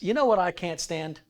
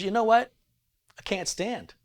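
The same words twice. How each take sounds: First: It runs on without a pause after "what". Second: There is a pause after "what". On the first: Something is unbearable to the speaker. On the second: The speaker is unable to stand up.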